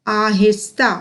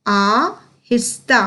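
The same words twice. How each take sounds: First: Said in the usual way. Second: आहिस्ता split as आ, हिस्ता with a pause; slow syllable by syllable. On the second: Shown as a demonstration. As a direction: sound out आहिस्ता slowly in two parts. (आ-हिस्ता को तोड़कर धीरे बोलना) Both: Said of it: "उच्चारण पर बहुत ही अधिक ध्यान".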